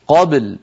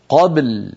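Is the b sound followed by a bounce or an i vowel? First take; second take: bounce; bounce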